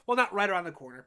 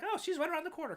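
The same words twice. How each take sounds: First: "not" hit louder with a falling tune; stress on not. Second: Pitched up high, airy and offhand; breezy mock quote. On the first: Shown as a demonstration. Correcting the quote with "not" stressed to set the record straight. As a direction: correct yourself, leaning on "not". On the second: Mimicking someone who calls a two-hour drive close. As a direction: toss it off like it's nothing. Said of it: "That's like".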